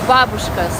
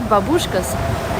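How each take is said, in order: First: It is said with the Russian stress. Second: It is said with the American stress. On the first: The speaker calls it right. "In the Russian language, it's babushka. Stress is on a different syllable" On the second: The speaker calls it wrong. "what you guys call in America babushkas"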